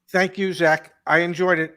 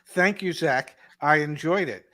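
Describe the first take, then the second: First: It is said in a flat, robotic way. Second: It is said in a warm, sincere way.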